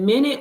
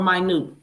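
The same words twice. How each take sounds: First: The word begins with a short 'min' sound. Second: The word begins with a long 'my' sound. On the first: A unit of time. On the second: Something very small or lesser.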